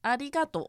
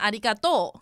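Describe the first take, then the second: First: It has a standard accent, falling at the end. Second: It has a Kansai accent, stressing the end.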